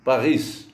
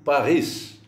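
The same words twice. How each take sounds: First: The final s is clearly pronounced. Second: The same.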